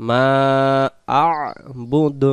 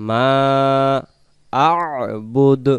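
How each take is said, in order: Both takes have the same delivery.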